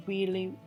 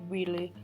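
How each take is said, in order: Both takes have the same delivery.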